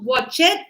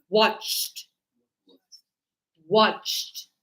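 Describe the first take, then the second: First: "watch it" in two syllables, ending raised; wrong pronunciation. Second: "watched" as one syllable ending in T; correct pronunciation. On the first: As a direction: show the mistake "watch it", sounding the -ed. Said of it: "it's not watch it". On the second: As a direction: say "watched" with a final T and no extra vowel. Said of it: "this is going to be T". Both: Shown as a demonstration.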